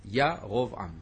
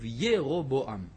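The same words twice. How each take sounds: First: The first vowel is an open 'a' sound. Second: The first vowel is not an 'a' sound. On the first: This is the form written in Hebrew Bibles. "הקמץ הראשון קמץ גדול, השני קמץ קטן" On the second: This is the form in the old Latin translation. "בתרגום הלטיני העתיק של התנ"ך, כתוב ירובעם"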